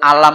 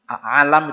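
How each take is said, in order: First: It begins with a plain vowel a. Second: It begins with a throaty ain sound. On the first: Did you not? "alam itu a dengan lam" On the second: The world or universe. "alam itu ain"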